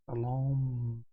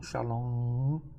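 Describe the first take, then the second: First: It ends with the lips closed on M. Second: It ends in a nasal vowel without closing. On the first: The speaker calls it right. "também no final som de M" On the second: The speaker calls it wrong. "não Shalom"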